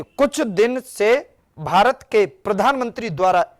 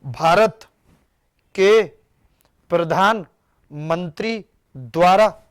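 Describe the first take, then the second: First: Slow, even read with कुछ दिन से भारत के प्रधानमंत्री द्वारा as one flowing phrase; correct phrasing. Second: Slow, broken into chunks; wrong phrasing. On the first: Teacher models the right reading for students, slow and smooth. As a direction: read it straight through without breaking. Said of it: "जिनके बीच में preposition नहीं होता वो सीधा पढ़ा जाता है". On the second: Teacher shows students the common wrong reading, slow and chopped. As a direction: demo of how most students misread it, pausing after Bharat and के. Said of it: "बहुत ज्यादातर लोग ऐसे पढ़ते, कैसे पढ़ते हैं".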